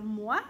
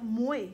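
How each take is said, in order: First: «moi» dit à la française; moi standard. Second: «moué» avec un «oué» québécois. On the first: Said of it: "au lieu de dire". («moi» à la parisienne) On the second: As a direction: dis «moué» au lieu de «moi». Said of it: "on va dire". («moué» à la québécoise) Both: Shown as a demonstration.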